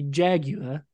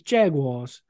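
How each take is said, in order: First: The word is said with a British pronunciation. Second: The word is said with an American pronunciation. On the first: "In Britain, they say" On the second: "the American version is"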